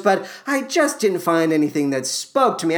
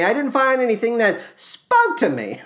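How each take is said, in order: First: Said in the usual way. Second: "spoke" stressed higher in emphatic repeat. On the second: Shown as a demonstration. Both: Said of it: "I say it to you twice for the sake of emphasis".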